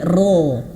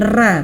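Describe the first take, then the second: First: The syllable is heavy, with a full vowel. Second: The syllable is light, with a thin vowel. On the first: The speaker calls it right. "Kalau fathah maka dia tebal" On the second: The speaker calls it wrong. "bukan ra"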